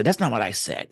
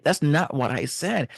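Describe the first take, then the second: First: NOT pressed in a mock protest; stress on not. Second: SAID lifted in a mock protest; stress on said. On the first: Spouse objecting to being misquoted, stressing not. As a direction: push the word not as you object. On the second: Spouse insisting on their words, stressing said. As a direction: lean into said as you insist.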